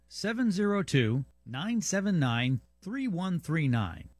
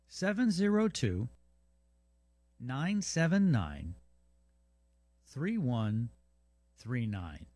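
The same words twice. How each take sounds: First: The number is read at normal speed. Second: The number is read more slowly.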